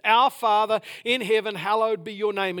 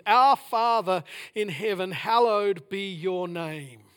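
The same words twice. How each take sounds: First: Louder and firmer at normal pace; louder proclamation. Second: Very slow, weighing each word; slow reverent reading. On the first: Preacher proclaiming the prayer to his congregation. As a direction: proclaim it with conviction. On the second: Preacher slowly reading the Lord's Prayer opening. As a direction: savour the words of the prayer. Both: Shown as a demonstration. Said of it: "What an incredible statement".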